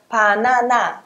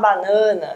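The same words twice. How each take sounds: First: Every a vowel is fully open. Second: The a vowels are closed and nasal. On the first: "Vai ficar banana, banana, aberta" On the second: "coreano não vai falar banana"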